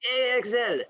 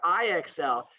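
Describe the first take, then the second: First: The letters are said with a Spanish accent. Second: The letters are said with an English accent.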